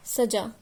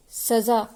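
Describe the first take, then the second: First: "सजा" as sajaa, with a j in the middle; teacher's clear sajaa for "सजा"; j-sound demo. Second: "सजा" as sazaa, with a buzzing z in the middle; teacher's clear sazaa for "सजा"; z-sound demo. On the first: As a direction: model "सजा" with plain j, no nukta. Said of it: "यह राजा का महल सजा है". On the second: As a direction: model "सजा" with z, not j. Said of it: "नुक्ते से ही शब्दों का अर्थ बदल रहा है". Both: Shown as a demonstration.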